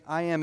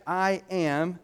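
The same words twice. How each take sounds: First: Said in the usual way. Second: "I am" with weight on both words; "I am" raised and deliberately stressed; emphatic I am. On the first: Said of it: "used to translate I am". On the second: Shown as a demonstration. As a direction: set "I am" apart, each word given emphasis. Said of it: "emphatic I am".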